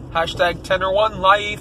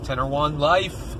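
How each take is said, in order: First: Hyped catchphrase. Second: Said in the usual way. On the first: Shown as a demonstration. Vlogger's catchphrase, punched up.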